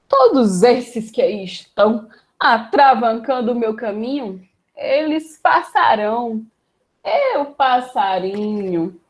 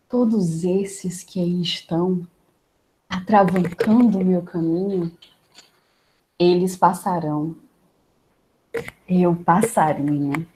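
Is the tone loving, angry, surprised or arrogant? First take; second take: arrogant; loving. First: It is said with an arrogant tone. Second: It is said with a loving tone.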